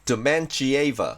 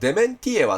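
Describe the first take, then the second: First: The middle syllable starts with a 'ch' sound. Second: The middle syllable starts with a 't' sound. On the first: This is the English way of saying the name. "英語だと、完全にティーアイがチになったり" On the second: This is the Japanese way of saying the name. "日本語では"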